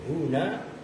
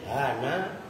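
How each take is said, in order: First: The vowel after h is u. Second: The vowel after h is a. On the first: "dengan dibaca dhammah haknya" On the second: "dengan dibaca fathah haknya"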